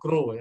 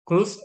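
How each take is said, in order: First: The word ends without a final 'th' sound. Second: The word ends with a final 'th' sound. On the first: The speaker calls it wrong. "karena tadi dibacanya grow ya" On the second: The speaker calls it right. "Jadi growth and development. Jadi bukan bukan grow ya"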